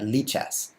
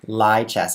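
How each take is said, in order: First: The first syllable sounds like 'lee'. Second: The first syllable sounds like 'lie'. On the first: "They would go E" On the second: "he actually says lie"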